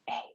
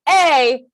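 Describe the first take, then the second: First: The vowel is said softly. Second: The vowel is said loudly. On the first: "or soft" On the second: "And it can be loud"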